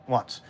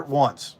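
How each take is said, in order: First: "Once" dropped to a soft, low aside; ranting about the salt yard staying open late, quiet emphasis; quiet repeat. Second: Said in the usual way. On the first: Real, not acted. Let the second "Once" fall away quietly.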